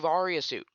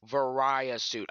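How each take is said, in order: First: The middle vowel sounds like 'ee'. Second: The middle vowel sounds like 'eye'. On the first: The speaker calls it right. "it's clearly Varia suit" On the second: The speaker calls it wrong. "Not Varia suit. I don't know why people pronounce it like that"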